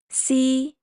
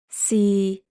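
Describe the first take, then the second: First: The syllable is said in Cantonese tone one. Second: The syllable is said in Cantonese tone six. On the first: "Tone one" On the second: "Tone six"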